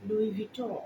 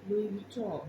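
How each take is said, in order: Both takes have the same delivery.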